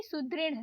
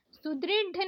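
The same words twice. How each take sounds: First: सुदृढ़ with flapped ढ़; correct flapped ढ़. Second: सुदृढ़ with stopped ढ; wrong hard ढ. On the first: Teacher correcting learners, flapped सुदृढ़. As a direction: flick the final ढ़ in सुदृढ़. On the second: Teacher showing learners the mistake, hard सुदृढ़. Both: Shown as a demonstration. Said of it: "नहीं".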